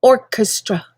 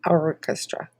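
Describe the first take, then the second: First: "Orchestra" said with a full r, or-kes-tra; "Orchestra" starting with an "or" sound; first pronunciation. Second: "orchestra" said ah-kes-tra, no r, low and soft; "orchestra" with an open "ah" start; corrected pronunciation. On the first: Reader announcing the poem title before correcting it. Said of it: "Actually, orchestra". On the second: Reader correcting the poem title pronunciation, lower and softer. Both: Shown as a demonstration.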